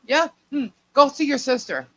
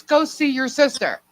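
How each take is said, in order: First: Ominous hint. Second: Pointed repeat. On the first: Mom ominously sending her. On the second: Mom repeating. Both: Retold or imitated.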